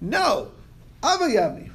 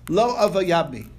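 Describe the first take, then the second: First: There is a pause after the first word. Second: The words run together without a pause.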